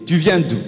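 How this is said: It is asked in a hostile, aggressive tone.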